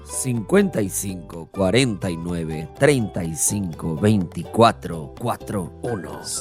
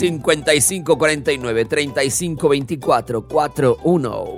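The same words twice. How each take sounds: First: The number is read more slowly. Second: The number is read at normal speed.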